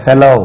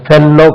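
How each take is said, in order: First: Fellow with one short, light L; correct pronunciation. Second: Fellow with a long, doubled L; wrong pronunciation. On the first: Teacher models fellow for learners, correctly pronounced with a single L. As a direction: say fellow as FEL-oh, L not held. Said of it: "அது இப்படி பாருங்க". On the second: Teacher shows learners the mistake, fellow mispronounced with doubled L. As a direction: say fellow as fel-lo, holding the L. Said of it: "அது fellow கிடையாது". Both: Shown as a demonstration.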